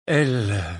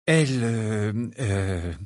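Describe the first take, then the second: First: Hesitant start in a hoarse voice. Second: Said in the usual way. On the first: A narrator's reading. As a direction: begin huskily, then stall. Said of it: "la voix rauque". (voix rauque, hésitante) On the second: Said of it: "s'éclaircit la gorge et recommença".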